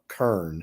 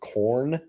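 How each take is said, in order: First: The word is said with an 'er' vowel. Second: The word is said with a standard 'or' vowel.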